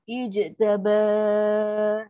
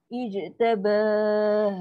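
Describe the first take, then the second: First: The ending is stretched out long before stopping. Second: The same.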